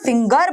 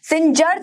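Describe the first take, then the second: First: The middle consonant is a hard g. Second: The middle consonant is a j sound. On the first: The speaker calls it right. "सिंगर बोल रहे हैं" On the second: The speaker calls it wrong. "सिंजर थोड़ी बोल रहे हैं"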